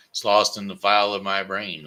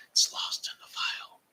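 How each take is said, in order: First: Said in the usual way. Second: Whispered to himself. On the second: Acted. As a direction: breathe it like a secret aside. Aside before repeating louder.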